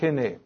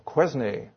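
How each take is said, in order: First: The name is pronounced the French way. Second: The name is pronounced the English way.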